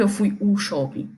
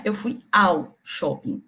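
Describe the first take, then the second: First: Said in the usual way. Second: Slow, with AO drawn out as one merged sound; stress on AO. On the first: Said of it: "Eu não digo que". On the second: Shown as a demonstration. Teacher correcting "o" to the merged form, stress on a drawn-out AO. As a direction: set AO apart slowly before shopping. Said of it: "juntou, formou".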